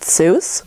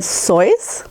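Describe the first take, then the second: First: The name rhymes with goose. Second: The name rhymes with voice. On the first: This is the popular way the name is said. The speaker calls it wrong. "his name is actually not supposed to be pronounced Seuss" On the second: This is the family's original way of saying the name. The speaker calls it right. "but instead Sois"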